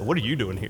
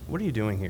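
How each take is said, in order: First: The question sounds harsh and accusing. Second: The question sounds gentle and kind. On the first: The listener feels challenged and gets defensive. The speaker calls it wrong. "if I said it like that, you're like, I'd get pretty defensive" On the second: The listener is moved to reflect on their reasons. The speaker calls it right. "if I asked it maybe in a better tone"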